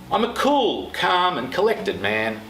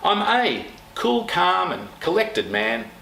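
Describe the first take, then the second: First: The word cool carries the strongest stress. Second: The word a carries the strongest stress. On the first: "Notice the pace is slower" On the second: "Notice the tone down"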